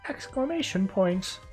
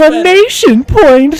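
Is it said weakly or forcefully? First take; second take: weakly; forcefully. First: It is said weakly, with little energy. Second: It is said forcefully, with much energy.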